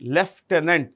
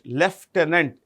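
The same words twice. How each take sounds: First: It is said with an f sound, leftenant. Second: It is said with an f sound, leftenant.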